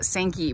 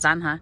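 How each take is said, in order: First: The name sounds like English 'Sankey'. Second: The name has a Spanish pronunciation. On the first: This is how locals commonly say it. "I have heard people call this ditch basically the Sankey" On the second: This is the proper Spanish form. "if you are speaking in proper Spanish is Zanja"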